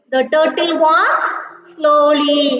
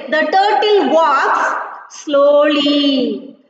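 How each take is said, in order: First: Slow sing-song classroom chant. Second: Slow emphatic reading. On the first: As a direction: chant it like a nursery rhyme. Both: Shown as a demonstration. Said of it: "Yeah, children, listen".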